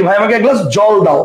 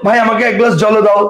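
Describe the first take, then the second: First: জল said as jol, ending cleanly on the l with no vowel after; correct pronunciation jol. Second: জল said as jolo, with an extra o sound at the end; wrong pronunciation jolo. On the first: Teacher demonstrating the everyday way students say জল. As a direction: clip জল short as jol. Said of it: "এই জল শব্দের শেষে কিন্তু অ নাই". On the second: Teacher asking students if they really say জল as jolo. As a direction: say জল as jolo, adding a final o. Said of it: "না, তুমি বলো কি". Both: Shown as a demonstration.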